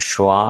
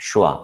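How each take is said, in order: Both takes have the same delivery.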